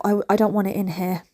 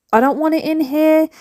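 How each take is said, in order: First: Said in the usual way. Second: "I don't want it in here" said higher and firmer; firm, decided repeat; emphatic repeat. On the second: Real, not acted. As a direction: insist on it the second time, stress on "here".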